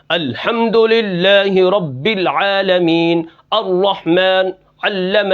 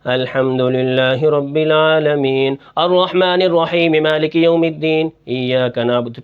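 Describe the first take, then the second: First: Slow, hard-pressed recitation with heavy syllables; harshly forced articulation. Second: Slow recitation dipping into a low pitch; voice lowered in places. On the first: Teacher shows students a recitation fault, pronouncing words with harshness. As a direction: bear down hard on each word as you recite. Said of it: "کسی کلمے کو سختی سے ادا کرنا". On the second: Teacher shows students a recitation fault, dropping the voice in places. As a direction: chant slowly, letting the voice sink here and there. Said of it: "کہیں آواز کو کم کرنا". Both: Shown as a demonstration.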